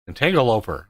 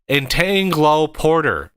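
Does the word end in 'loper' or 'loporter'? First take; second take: loper; loporter. First: The word ends with the sounds 'loper'. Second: The word ends with the sounds 'loporter'. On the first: The speaker calls it wrong. "he mispronounces it. he calls it an entangloper" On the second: The speaker calls it right. "It ports stuff around"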